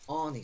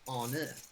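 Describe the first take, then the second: First: The name is said with an English pronunciation. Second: The name is said with a Dutch pronunciation. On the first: This is how locals here say the name. "we say Arnie Slot" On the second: This is how the name is said in the Netherlands. "but it's Arne"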